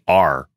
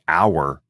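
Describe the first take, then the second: First: It sounds like the word 'are'. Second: It sounds like the word 'hour'. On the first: "I say R" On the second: "I don't say our"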